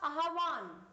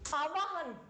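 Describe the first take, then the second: First: The h sound comes before the v sound. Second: The h sound comes after the v sound. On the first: The speaker calls it right. "ब्रह्मा है बीच में आएगा सब में" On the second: The speaker calls it wrong. "बोलते गलत है"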